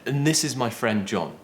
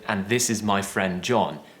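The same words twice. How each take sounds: First: The word 'and' is reduced to a short 'n'. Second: The word 'and' is said in its full form. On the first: "I would probably say" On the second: "instead of saying"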